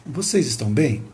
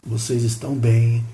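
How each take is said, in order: First: "Vocês estão bem?" with a singing tune, stress on "vocês"; melodic question. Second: "Vocês estão bem?" plain, with a low, level tune; flat question. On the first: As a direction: make "Vocês estão bem?" lilt with a melodic rise and fall. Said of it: "ficou mais melódica a pergunta". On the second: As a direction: ask "Vocês estão bem?" flatly, without melody. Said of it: "Como se eu falasse assim". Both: Shown as a demonstration.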